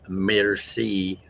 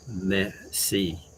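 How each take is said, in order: First: The R sound is clearly and strongly pronounced. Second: The R sound is only faintly hinted at. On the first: This is how an American speaker says it. "Like Americans would say merci" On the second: This is how a French speaker says it. "the French don't really pronounce their R's"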